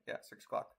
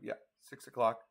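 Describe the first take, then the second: First: Whispered self-check under the breath; muttering to himself. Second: Said in the usual way. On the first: Real, not acted. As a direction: mumble it quietly to yourself. Checking the time under his breath.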